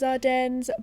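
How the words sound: The word is said with an American pronunciation. "the American way of saying this horse"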